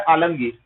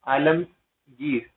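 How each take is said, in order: First: Said in the usual way. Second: Alamgir drawn out very slowly, low and softer; lower, unhurried dictation of Alamgir; slow repetition. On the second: Shown as a demonstration. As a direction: say Alamgir slowly, syllable by syllable, for learners. Teacher repeats place name slowly.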